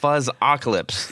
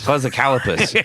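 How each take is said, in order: First: The name ends with the sounds 'calypse'. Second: The name ends with the sounds 'calopus'. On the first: The speaker calls it right. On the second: The speaker calls it wrong. "it's not a fuzzicalopus"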